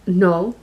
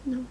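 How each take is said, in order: First: Said in the usual way. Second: Tiny, low-volume refusal; very quiet. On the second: Retold or imitated. Shy child refusing the other mother, very quiet. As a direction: barely let the word out. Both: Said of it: "I used to talk really low".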